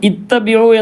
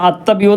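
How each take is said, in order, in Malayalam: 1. ഈ വാക്ക് i സ്വരാക്ഷരത്തിലാണ് തുടങ്ങുന്നത്. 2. ഈ വാക്ക് a സ്വരാക്ഷരത്തിലാണ് തുടങ്ങുന്നത്. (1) "ഇത്തബിഉ എന്ന് തന്നെ വായിക്കണം" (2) "ചിലപ്പോൾ അത് അത്തബിഉ എന്നൊക്കെ വായിക്കാനൊക്കെ സാധ്യതയുണ്ട്"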